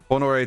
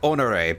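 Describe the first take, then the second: First: It is said with a plain, unexaggerated accent. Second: It is said with an exaggerated French accent.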